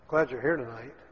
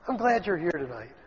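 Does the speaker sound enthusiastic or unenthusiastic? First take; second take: unenthusiastic; enthusiastic. First: The voice sounds flat and unenthusiastic. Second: The voice sounds warm and enthusiastic. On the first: The speaker does not really welcome you. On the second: The speaker is truly happy you came.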